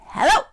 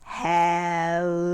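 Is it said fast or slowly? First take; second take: fast; slowly. First: It is said very fast. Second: It is said very slowly.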